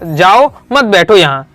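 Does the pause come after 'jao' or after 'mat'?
after jao. The pause comes after 'jao'.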